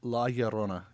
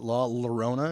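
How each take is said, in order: First: The name is pronounced in a Spanish way. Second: The name is pronounced in an English-like way. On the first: The speaker calls it right. "Yeah, like that" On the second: The speaker calls it wrong. "I didn't even realize I was saying it wrong for the longest time"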